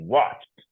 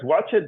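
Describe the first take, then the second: First: The ending is said as a short T sound. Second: The ending is said as an extra syllable. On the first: The speaker calls it right. "We pronounce it with a T at the end" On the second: The speaker calls it wrong. "We don't say watch it because watch it doesn't exist"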